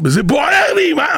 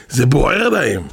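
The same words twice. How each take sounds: First: High-pitched, burning outburst; hammed-up urgent yell; mock shouting. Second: Said in the usual way. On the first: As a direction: cry it out as if it burns. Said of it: "והתחיל לצעוק".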